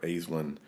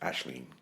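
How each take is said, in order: First: The name is said in an English-style way. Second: The name is said in the Irish way. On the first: This is what the family calls her. "We can call her Aislinn" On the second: This is the proper form in the original language. "the proper Irish pronunciation is Ashleen"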